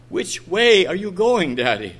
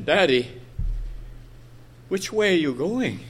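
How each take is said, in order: First: Innocent, insistent question. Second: Soft, lightly voiced child's question; innocent little girl. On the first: Retold or imitated. Little girl pressing her father for an answer, innocent but firmer. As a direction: press the question, lightly imitating the child. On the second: Little girl asking her father his way, softly innocent. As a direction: gently imitate a child asking, pausing after Daddy. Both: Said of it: "she innocently asked him".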